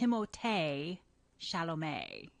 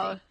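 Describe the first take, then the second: First: The name is said with French pronunciation. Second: The name is said with English pronunciation. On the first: This is how the name is supposed to be said. "You know how you're supposed to say his name? ... He's French" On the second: This is the easier everyday version. "So I just go by"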